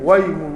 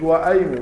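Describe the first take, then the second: First: The glottal stop is dropped after the wa. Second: A glottal stop is pronounced after the wa. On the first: The speaker calls it right. "لما تحذف منه الهمزة" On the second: The speaker calls it wrong. "ما تقولش وأيم"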